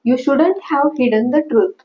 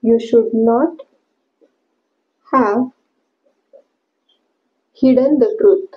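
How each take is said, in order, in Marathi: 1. Should not हे एका छोट्या शब्दात संकुचित केले जाते. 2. Should not हे दोन पूर्ण शब्द म्हणून म्हटले जाते. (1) "shouldn't हे should not चं संक्षिप्त रूप आहे" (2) "should not"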